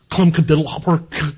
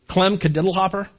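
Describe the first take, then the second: First: Lower, odd voice for "Clem Cadiddlehopper"; a light imitation of an old clown's weird talk. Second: Said in the usual way. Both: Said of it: "he talked really weird".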